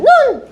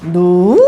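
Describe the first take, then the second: First: The word is said on a high pitch. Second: The pitch starts low and then rises. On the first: It could mean snow falling from the sky. "점이 하나 있으면 눈! ... 가장 어떤 음? 높은 음" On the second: It could mean something else, such as the eye area. "낮았다가 높아지는 음이라고 했죠. 그럼 두 개가 있으면 눈"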